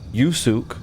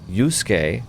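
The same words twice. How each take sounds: First: The 'u' after the 's' is fully voiced. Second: The 'u' after the 's' is silent.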